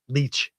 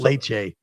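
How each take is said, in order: First: The first vowel sounds like 'lee'. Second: The first vowel sounds like 'lay'. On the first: The speaker calls it right. "It's leech" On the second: The speaker calls it wrong. "it's not"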